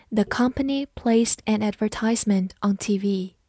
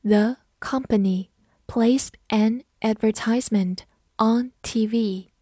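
First: Said in the usual way. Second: Slow, phrase by phrase; slow reading. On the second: Shown as a demonstration. Teacher slowly modelling the TV advertisement sentence, slow reading. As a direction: read it out slowly with pauses between chunks. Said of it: "好，慢读一遍".

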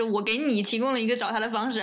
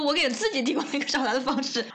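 First: Light stress on 你 in the quote. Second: 自己 picked out with raised pitch; stress on 自己. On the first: Co-host rephrasing the husband's excuse, light stress on 你. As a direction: set up 你 as the one being given the method. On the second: Co-host arguing with the husband's excuse, pointed stress on 自己. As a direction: hit 自己 as the contrast to 你. Corrects 你 to 自己. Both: Retold or imitated.

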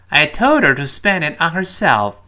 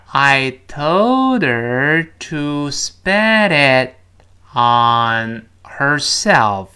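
First: Said in the usual way. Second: Very slow, drawn-out teacher demo; slowed-down model reading. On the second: Shown as a demonstration. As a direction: stretch every word out for learners. (放慢示范朗读，拖长每个词) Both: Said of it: "我们放慢一点".

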